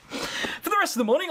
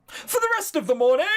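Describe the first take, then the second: First: Said in the usual way. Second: High, loud dramatic reading; mock dramatic. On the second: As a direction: announce it like a trailer.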